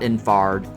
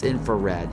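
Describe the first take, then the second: First: The word is clipped, with a syllable dropped. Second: The word is said in full, every syllable. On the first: The speaker calls it wrong. "I mispronounced it earlier. It's not infard" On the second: The speaker calls it right. "It's infrared"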